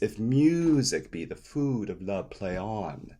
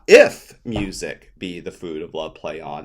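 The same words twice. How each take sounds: First: The beats run together in a smooth, natural flow. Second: The beats are hit evenly, in a mechanical rhythm. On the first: The speaker calls it right. "See the difference in the flow?" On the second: The speaker calls it wrong. "we don't want to sound robotic"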